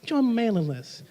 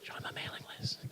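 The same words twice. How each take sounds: First: Softly voiced creepy invitation; a hint of a creepy stranger leaning in; soft creepy coaxing. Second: Fully whispered creepy invitation. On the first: Speaker mocks sign-up forms, soft creepy coaxing. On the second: Pretend. Speaker mocks sign-up forms, creepy whisper. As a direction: whisper it right in their ear, creepily. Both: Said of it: "A little creepy".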